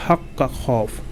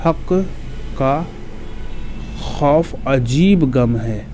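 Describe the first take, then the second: First: Said in the usual way. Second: Slow, word by word with pauses; slow dictation. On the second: Shown as a demonstration. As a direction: spell out हक का खौफ अजीब गम है for memorising. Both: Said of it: "एक जुमला आप लोग याद करके रखिएगा".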